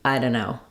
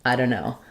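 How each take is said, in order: Both takes have the same delivery.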